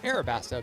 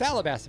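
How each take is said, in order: First: The second consonant is an R sound. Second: The second consonant is an L sound. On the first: The name comes from Arabic influence. "it's Arabasta because it's the Arabic influence" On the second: The name comes from Egyptian alabaster. "it's Alabasta because of the alabaster from Egypt"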